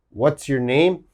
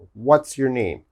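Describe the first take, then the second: First: What and is are joined into what's. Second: The same.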